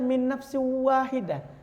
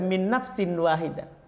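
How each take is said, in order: First: It is recited with full Quranic recitation rules. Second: It is read plainly like ordinary speech. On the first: This is the reading the critic expected. "Kenapa dia tidak baca" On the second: This is how the preacher actually read it. "Kok dibaca"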